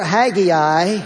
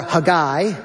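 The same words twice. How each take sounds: First: "Haggai" in three syllables, HAG-ee-eye; alternative pronunciation. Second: "Haggai" as huh-GUY, stress on the end; alternative pronunciation. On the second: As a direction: say "Haggai" slowly, reduced first vowel, strong GUY. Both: Shown as a demonstration. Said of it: "or if you prefer".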